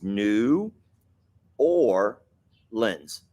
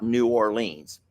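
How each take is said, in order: First: The last part sounds like the word 'lens'. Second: The last part does not sound like 'lens'. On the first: The speaker calls it right. "like the lens of a, lens of, of your glasses" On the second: The speaker calls it wrong. "It's not New Orleans"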